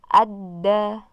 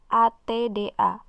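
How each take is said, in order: First: The doubled consonant is a d sound throughout. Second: The doubled consonant starts with a t sound. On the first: The speaker calls it right. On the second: The speaker calls it wrong.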